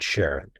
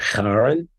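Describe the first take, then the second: First: The name begins with a soft sh sound. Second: The name begins with a hard k sound. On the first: This honors the discoverer's wife's name. "pronounce it like an S H in Sharon" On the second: This follows the original Greek name. "the proper pronunciation is something like Charon, but no one says that"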